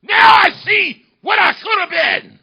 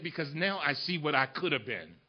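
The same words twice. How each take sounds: First: High, slow, full-voiced cry; impassioned shout. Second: Very soft, low father's voice; retold hushed confession. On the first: Orator repeating his father's words to the crowd, shouted. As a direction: hurl it out to the whole hall. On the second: Father confessing lost chances to his son, hushed. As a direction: let it sink, quiet and low.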